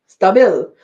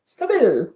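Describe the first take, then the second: First: Put-on "Stabil" said STAH-bil with a loud, punchy foreign-sounding accent. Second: "Stabil" repeated as STAH-bil in a put-on foreign accent, pitched a bit up. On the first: Reading a chat message aloud, says "Stabil" as loud STAH-bil. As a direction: read the brand name "Stabil" as STAH-bil, loudly, like a foreign word. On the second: Repeating the brand name to chat, "Stabil" as a mock-foreign STAH-bil. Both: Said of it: "I don't know why I put an accent on that".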